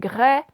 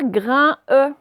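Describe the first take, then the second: First: An oral vowel, then a final N sound. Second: A nasal vowel, then a separate final E. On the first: The speaker calls it right. "Donc ça fait graine" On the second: The speaker calls it wrong. "on ne va pas faire grain E"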